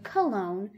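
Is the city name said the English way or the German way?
English. The name is said with English pronunciation. "or the English way"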